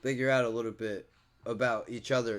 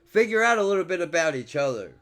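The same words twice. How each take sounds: First: Softer, lower earnest echo; soft sincere repeat. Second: Said in the usual way. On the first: Real, not acted. Vlogger repeats his hope to viewers, softly sincere. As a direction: let it sink in gently. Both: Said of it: "repeats the phrase for emphasis".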